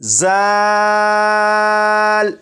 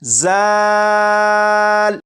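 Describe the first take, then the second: First: The consonant has a sharp whistling hiss. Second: The consonant has a sharp whistling hiss.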